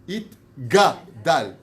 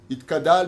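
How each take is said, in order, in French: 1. La consonne après 'it' est un son g. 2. La consonne après 'it' est un son k. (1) "Il y a marqué It-Gadal" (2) "où est-ce qu'il y a marqué Itkadal?"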